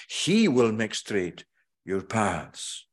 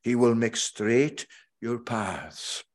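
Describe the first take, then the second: First: Single out "He" as the one who acts; slow, emphatic "He" and a falling finish; stress on HE. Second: Said in the usual way. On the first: Shown as a demonstration. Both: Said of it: "a forceful emphasis on that word, he".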